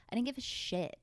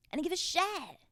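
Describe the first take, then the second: First: Said in the usual way. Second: Emphatic repeat. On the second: Real, not acted. Telling listeners about high school, emphatic higher repeat.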